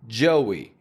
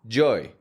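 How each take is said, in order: First: A W glide joins the two vowels. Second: No W glide joins the two vowels. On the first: The speaker calls it right. "we pronounce a W in the middle" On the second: The speaker calls it wrong. "If you pronounce that, it sounds more like joy"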